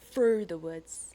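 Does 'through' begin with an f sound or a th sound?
f sound. Through begins with an f sound. "London would be like th"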